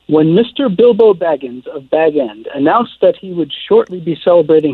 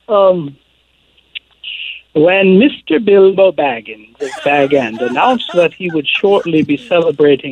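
First: It is read in the reader's usual accent. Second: It is read in a British accent.

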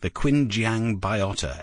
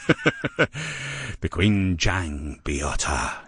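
First: It is said in an ordinary, plain voice. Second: It is said in a dramatic, movie-trailer voice.

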